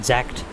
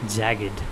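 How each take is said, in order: First: It is said as one syllable, like jacked. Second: It is said as two syllables, jag-ged. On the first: The speaker calls it wrong. "Not jacked" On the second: The speaker calls it right.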